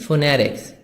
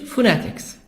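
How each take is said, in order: First: It is spoken in an American accent. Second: It is spoken in a British accent. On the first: "American phonetics" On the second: "British phonetics"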